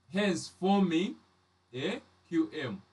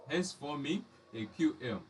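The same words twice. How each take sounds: First: Teacher stressing the key term; slow emphasis. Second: Said in the usual way. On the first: Shown as a demonstration. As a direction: lean on "hence forming" and draw it out.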